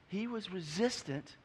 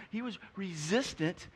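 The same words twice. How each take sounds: The two takes are said the same way.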